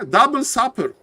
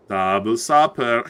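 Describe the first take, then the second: First: "double supper" pitched high; high exclamation. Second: "Double supper" low and slow; low drawn-out echo. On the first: Real, not acted. Caster confirming his guess, high-pitched exclamation. Same phrase said twice, contrasted. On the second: Pretend. Caster savouring his guess before laughing, low slow echo.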